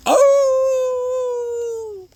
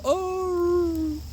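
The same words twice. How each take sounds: First: Loud, high, long-held wolf howl. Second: Half-hearted high wolf howl, held back; small wolf howl. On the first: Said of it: "howl like a wolf at the top of your lungs". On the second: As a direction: give just a little howl, not your all. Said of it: "just a little small howl". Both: Shown as a demonstration.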